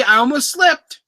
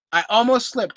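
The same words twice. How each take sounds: First: High, excited near-slip; caught myself. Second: Said in the usual way. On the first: Real, not acted. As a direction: blurt it out, high and amused. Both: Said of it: "Oh, I almost said it".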